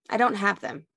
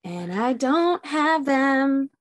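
First: Said in the usual way. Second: Slow, higher, leaning hard on "don't"; dismayed emphasis. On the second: Real, not acted. To her friend, realizing she forgot the pump piece, slow and stressed. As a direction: draw out "don't" in disbelief.

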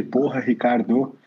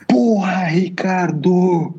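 First: Slow, quieter retelling of the yell; a half-hearted echo of the father's yell; mild mock yell. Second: A fed-up father yelling after the third call; retold shout. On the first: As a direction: recall the shout softly and slowly instead of yelling it. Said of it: "Quando ele gritou aquele". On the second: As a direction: bark the first word, then let the name come out as a breathy, drawn-out call. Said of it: "e ele deu um puta grito".

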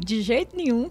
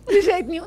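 First: "nenhum" said as "niu", clipped; mineiro "de jeito nenhum". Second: Louder, higher "De jeito nenhum" with "niu"; firm mineiro refusal; emphatic "de jeito nenhum". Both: Shown as a demonstration. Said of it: "o mineiro fala assim".

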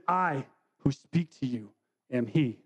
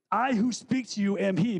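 First: Lower, slower, hushed words of Jesus; slow it down and let each word sink in; solemn and slow. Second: Said in the usual way. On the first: Acted. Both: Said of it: "I think that that's very significant".

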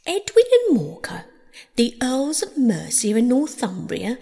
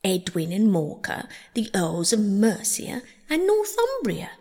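First: High, loud, grand declaiming; loud recitation. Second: Said in the usual way. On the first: Acted. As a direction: proclaim it like a herald. Mouse's recitation resumed, loudly declaimed.

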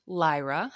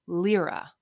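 First: "Lyra" with a long i, rhyming with Myra; alternative pronunciation of Lyra. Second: "Lyra" with a long ee in the first syllable; first pronunciation of Lyra. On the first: Podcaster offering both ways to say the name, "Lyra" as LIE-ruh. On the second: Podcaster offering both ways to say the name, "Lyra" as LEER-uh. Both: Shown as a demonstration. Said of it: "however you want to say it".

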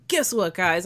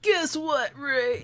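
First: Said in the usual way. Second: "Guess what" jumps much higher in playful mockery; mocking singsong. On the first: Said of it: "and I'll be like". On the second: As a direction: tease him by parroting his opener way up high. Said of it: "I'll be like".

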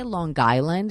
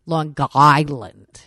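First: "Long Island" run together around a hard G; Long Island pronunciation. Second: "Long Island" drawn out, loud, choking on the G; choked G. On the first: Mocking how locals say it, "Long Island" with hard G. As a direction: join "Long Island" into one word with an audible G. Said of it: "It's just the G's". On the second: Demonstrating the local G to co-host, "Long Island" slow, loud and choked. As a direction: stretch "Long Island" slowly and gulp the hard G. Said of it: "you choke on the fucking G". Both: Shown as a demonstration.

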